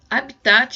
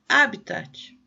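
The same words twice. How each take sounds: First: The stress is not on the first syllable. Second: The stress is on the first syllable. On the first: The speaker calls it wrong. "como a gente normalmente vê lá nas aulas de biologia" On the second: The speaker calls it right. "essa palavra tem acento no primeiro A"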